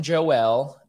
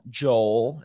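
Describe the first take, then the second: First: "Joel" pronounced Jo-EL; two-syllable Joel. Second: "Joel" squashed into a single beat; one-syllable Joel. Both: Shown as a demonstration. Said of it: "as some people call him".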